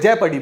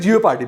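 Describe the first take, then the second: First: The word begins with a short 'jep' sound. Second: The word begins with a drawn-out 'jee-oh' sound. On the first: This is the dictionary pronunciation. "वहां पे जेपर्डी बोलते हैं" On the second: Some people say it this way. "कोई कोई जियोपार्डी भी बोलता है"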